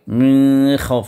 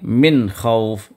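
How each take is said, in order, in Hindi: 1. नून छिपाकर नाक से गुन्ना के साथ पढ़ा जाता है। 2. नून साफ़ निकाला जाता है, नाक से छिपाए बिना। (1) "ना गुन्ना करेंगे, ना इख्फा करेंगे, मिन खौफ नहीं पढ़ेंगे" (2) "नून को बिल्कुल ज़ाहिर कर देंगे"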